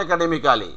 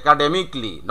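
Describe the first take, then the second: First: Academically as "e-ka-de-mi-KA-li"; full "-ka-li" ending on academically; wrong local form. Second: Academically said "e-ka-de-mik-li"; silent A. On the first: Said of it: "not academically". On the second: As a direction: drop the A in academically, ending "-mikli". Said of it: "keep silent A". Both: Shown as a demonstration.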